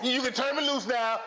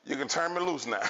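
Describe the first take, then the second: First: Granny voice. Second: Perfect granny voice. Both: Retold or imitated. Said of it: "She said in the perfect granny voice".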